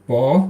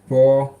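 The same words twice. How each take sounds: First: The syllable has a rising pitch. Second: The syllable has a high level pitch. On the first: "Second tone" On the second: "I'm trying to do all four"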